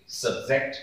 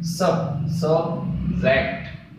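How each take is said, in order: First: Said in the usual way. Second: सब्जेक्ट slowly broken into सब… जेक्ट; two separate syllables. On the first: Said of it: "उसी तरीके से". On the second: Shown as a demonstration. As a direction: say सब first, then सब्जेक्ट in two stretched beats. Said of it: "इसके दो syllable होंगे".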